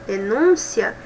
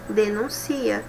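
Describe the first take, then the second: First: The stress falls on the second syllable. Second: The stress falls on the third syllable. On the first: It is the noun. "eu tenho substantivo e observe que a pronúncia é diferente" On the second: It is the verb. "que é verbo"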